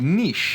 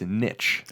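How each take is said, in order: First: It is pronounced the French way. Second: It is pronounced the American English way. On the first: "in French it would be niche" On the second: "in American English, it's niche"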